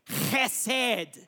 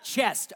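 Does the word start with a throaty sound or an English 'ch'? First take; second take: throaty; English ch. First: It starts with a heavy, throaty guttural sound. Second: It starts with a plain English 'ch' sound. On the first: The speaker calls it right. "you have to use it with like the heavy guttural" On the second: The speaker calls it wrong. "It's not chest"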